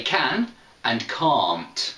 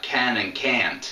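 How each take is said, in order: First: "can" with a flat a, "can't" with a long broad "ah" like "aunt"; British can and can't. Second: "can" and "can't" both with the same flat a, lightly imitated; American can and can't. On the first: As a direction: say "can" short and "can't" as "kahnt", clearly different. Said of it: "in British English". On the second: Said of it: "I think in America". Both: Shown as a demonstration.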